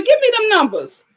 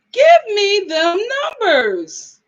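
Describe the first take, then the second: First: Higher-pitched, quick-fire demand; eager demand. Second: Slow, stretched-out plea, high then falling; drawn-out demand. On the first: Host asking a viewer for daycare prices, eager demand. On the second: Host begging a viewer for daycare prices, drawn-out demand. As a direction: drag out every word for comic effect. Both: Real, not acted.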